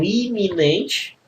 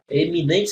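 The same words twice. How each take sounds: First: "iminente" drawn out, first vowel i not e; initial I in iminente. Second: "Eminente" opening on an e sound, not i; first vowel of "Eminente" pronounced as e; initial E in eminente. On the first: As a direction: stretch "iminente" slowly, opening on a clear ee. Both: Shown as a demonstration. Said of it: "o parônimo".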